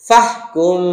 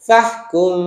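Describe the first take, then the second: Both takes have the same delivery.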